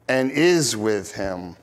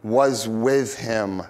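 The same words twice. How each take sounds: First: "is" leaned on, low and slow; stress on is. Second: "was" leaned on, low and slow; stress on was. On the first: Preacher stressing that the Father "is" with him now, slow. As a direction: press "is" as the present answer to "was". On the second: Preacher stressing that the Father "was" with Jesus, slow. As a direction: press "was" to set it against "is". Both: Real, not acted. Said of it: "The Father".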